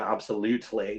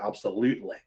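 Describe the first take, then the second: First: The T sound in the middle is clearly pronounced. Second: The T sound in the middle is dropped. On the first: The speaker calls it wrong. "with the, the T and absolutely, you don't say that" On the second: The speaker calls it right. "You say absolutely"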